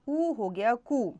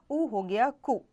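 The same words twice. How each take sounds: First: Drawn-out vowel in कु, like koo; long u. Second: Short vowel in कु. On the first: Teacher showing the next vowel to students, long u in कु. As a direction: stretch the u in कु slowly. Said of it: "अगला है ऊ". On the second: Teacher joining consonant and vowel for students, short u in कु. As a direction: say कु with a brief u. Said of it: "क जमा". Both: Shown as a demonstration.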